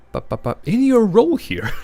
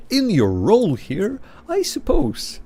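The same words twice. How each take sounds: First: Said in the usual way. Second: Slow, then a high squeaky "I suppose"; mock silly phrasing. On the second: Shown as a demonstration. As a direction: ham up the prissy wording. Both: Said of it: "but it's phrased really silly".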